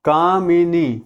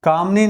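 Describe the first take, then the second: First: A short 'i' vowel comes between 'm' and 'n'. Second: There is no vowel between 'm' and 'n'. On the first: The speaker calls it right. "यह शब्द होता है कामिनी। छोटी ई की मात्रा आएगी।" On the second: The speaker calls it wrong. "कामनी नहीं होता।"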